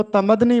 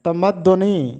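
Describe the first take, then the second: First: तमद्दनी without the u, "ta-mad-ni"; students' wrong तमद्दनी, "tamadni"; common mispronunciation. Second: तमद्दुनी as "ta-mad-du-NI", with u; teacher's model of तमद्दुनी, "tamad-duni"; correct pronunciation. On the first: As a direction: drop the u vowel in तमद्दनी. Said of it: "अक्सर तालिब इल्म इसको तमद्दनी पढ़ते हैं". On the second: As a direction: sound the u after double d in तमद्दुनी. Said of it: "चौथा लफ्ज़ है तमद्दुनी". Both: Shown as a demonstration.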